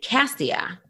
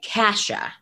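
First: The name has an 's' sound and three syllables. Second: The name has an 'sh' sound and two syllables. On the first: This is how the reader imagined it while reading. The speaker calls it wrong. "in my head, when I was reading Matched, I was pronouncing it Cassia" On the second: This is how the audiobook says it. The speaker calls it right. "they're pronouncing it Kasha"

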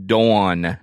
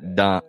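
First: It is said in a Southern US accent. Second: It is said in a Northern US accent. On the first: The speaker calls it right. "Because we say it right. It's Dawn" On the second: The speaker calls it wrong. "not Dawn"

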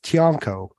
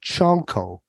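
First: The name begins with a plain t sound. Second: The name begins with a ch sound.

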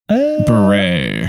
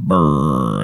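First: It sounds like 'beret', with two syllables. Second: It sounds like 'burr', with one syllable. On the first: The speaker calls it right. "so beret is the correct" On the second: The speaker calls it wrong. "I know I said it wrong because I say Candace Cameron burr"

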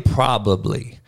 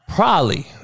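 First: The word is said in its full form. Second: The word is said in a clipped, shortened form. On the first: This is the proper way of saying it. "It's really probably" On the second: This is the neighborhood way of saying it.

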